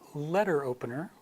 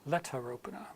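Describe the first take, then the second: First: It is said in an American accent. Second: It is said in a British accent. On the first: "in my American accent" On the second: "the R comes back for letter opener"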